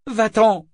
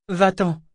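First: High, very loud yell; shouted order. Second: High, loud, firm command; distinct order. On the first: Althea screams at the man to leave, high shout. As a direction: cry it out to drive someone off. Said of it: "cria-t-elle". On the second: Althea orders the man away, distinct firm command. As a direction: order someone away, each syllable distinct. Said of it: "ordonna Althea distinctement". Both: A narrator's reading.

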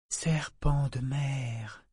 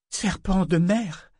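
First: Slow, much softer, drawn out; soft repeat. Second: Higher, slow, startled exclamation; sudden exclamation. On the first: Amber repeating the words softly to Paragon, slow and quiet. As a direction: repeat it slowly and softly, in wonder. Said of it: "répéta-t-elle doucement". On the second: Amber suddenly catching on to the words, surprised exclamation. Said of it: "s'exclama-t-elle soudain". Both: Acted.

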